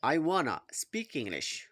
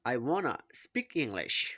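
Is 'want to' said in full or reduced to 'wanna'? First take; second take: reduced; reduced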